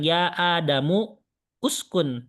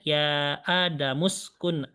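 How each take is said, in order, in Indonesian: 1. Vokal pada uskun diucapkan terpisah. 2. Bunyi s langsung menyambung ke kata sebelumnya. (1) "bukan ya adamu uskun" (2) "langsung di ke sinkan ya jadinya"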